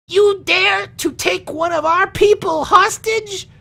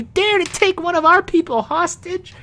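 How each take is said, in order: First: Very high, slow, outraged squeak of a voice; a small man daring to defy the orcs, pitched way up; indignant halfling man. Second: Very high squeaky outrage, stress on our; indignant halfling man. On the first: Halfling man to the orcs demanding their captive back, in a high outraged voice. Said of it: "the middle-aged man speaks up and goes". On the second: Halfling man correcting himself to the orcs, high indignant squeak. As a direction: hit our hard in a shrill little voice. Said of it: "no, he says". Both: Acted.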